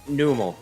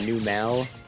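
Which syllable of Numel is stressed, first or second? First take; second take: first; second. First: The stress is on the first syllable. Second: The stress is on the second syllable. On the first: The speaker calls it right. "like a camel" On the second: The speaker calls it wrong. "The whole wrong emphasis on the wrong syllable thing. She called Numel Numel"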